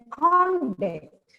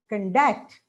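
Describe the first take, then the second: First: The stress is on the first syllable. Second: The stress is on the second syllable. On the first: It is used as a noun. "conduct as a noun" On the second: It is used as a verb. "As a verb, it is conduct"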